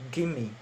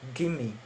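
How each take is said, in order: First: The words run together into one reduced word. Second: The same.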